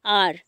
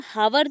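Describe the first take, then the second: First: आर with no H sound at all; silent H. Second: हावर with a sounded H at the start; H pronounced. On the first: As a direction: say आर, starting straight on the vowel. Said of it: "आर बोलते हैं". (आर, बिना 'ह' की आवाज़ के) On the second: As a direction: say हावर, wrongly voicing the silent H. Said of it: "इसको हम हावर तो नहीं पढ़ते ना". (हावर, शुरू का 'ह' बोलकर) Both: Shown as a demonstration.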